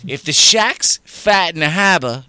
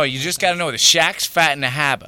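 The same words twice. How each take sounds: First: If the Shaq's fat in the harbor, loud and slow with heavy Boston vowels; higher, louder, slow Boston accent demo; broad Boston accent. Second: Shaq's fat in the harbor in a light Boston accent, r's dropped; louder Boston accent demo. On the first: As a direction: hammer the Boston accent home. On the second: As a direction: say it like a Boston local. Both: Shown as a demonstration. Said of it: "you're Boston".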